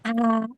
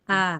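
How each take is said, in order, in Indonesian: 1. Vokalnya berdesah, udara keluar. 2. Vokalnya dimulai tegas, napas ditahan. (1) "tidak begini ... Enggak begitu" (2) "dia tertahan nafasnya ... Begitu"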